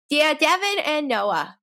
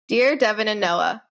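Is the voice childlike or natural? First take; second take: childlike; natural. First: It is read in a put-on childlike voice. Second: It is read in a natural adult voice.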